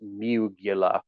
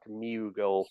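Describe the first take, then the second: First: The name is said with three syllables. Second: The name is said with two syllables. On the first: This is how the dubbed version said the name. "They pronounced it differently. It was Mugula, like uvula" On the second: This is the name as it was originally said. "Chuck Mughal was his was his surname"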